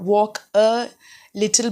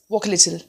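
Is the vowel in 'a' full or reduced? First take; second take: full; reduced. First: The word 'a' has a full, clear vowel. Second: The word 'a' has a reduced schwa vowel. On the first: The speaker calls it wrong. "It's not" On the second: The speaker calls it right. "but it's"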